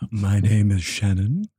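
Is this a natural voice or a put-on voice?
put-on. It is said in a put-on, unnatural voice.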